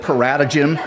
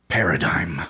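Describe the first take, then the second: First: The word ends with a 'gym' sound. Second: The word ends with a 'dime' sound. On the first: The speaker calls it wrong. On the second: The speaker calls it right.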